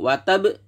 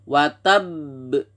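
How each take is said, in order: First: The final b bounces out immediately without holding. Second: The final b is pressed and held, then bounces. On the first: The speaker calls it wrong. "tidak boleh langsung watab" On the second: The speaker calls it right. "tapi ditekan dulu sebelum dipantulkan"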